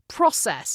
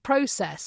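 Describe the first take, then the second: First: It is said with an American pronunciation. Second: It is said with a British pronunciation. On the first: This is the local way where the speaker now lives. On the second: This is the speaker's original home way.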